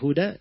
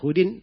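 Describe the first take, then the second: First: The word ends with an 'a' sound. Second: The word ends with an 'in' sound. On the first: The name is treated as indeclinable, to fit the poetic meter. The speaker calls it right. "Kalau dibaca Huda, itu fa'ilun. Maka lebih bagus dibaca Huda" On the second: The name is declined normally, ending in -in. The speaker calls it wrong. "Kalau Hudin, itu wazannya fa'ilun"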